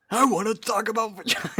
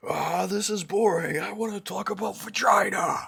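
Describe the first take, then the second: First: Higher mocking quote; whiny bored mimicry. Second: Mocking voice. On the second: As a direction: imitate a whiny bored voice. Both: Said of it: "How's it go?".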